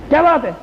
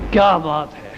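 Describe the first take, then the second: First: It sounds like an angry scolding. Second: It sounds like warm praise.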